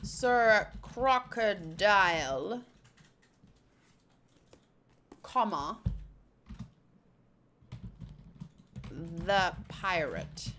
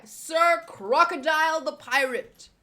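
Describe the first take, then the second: First: Low, very slow title with long pauses; drawn-out, low reading of the title; deliberate title read. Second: Loud, emphatic chapter title; big showy title read; title announcement. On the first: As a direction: spell out the pause after CROCODILE. Repeats title with spoken comma. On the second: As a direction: announce it with a punch on SIR. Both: Acted.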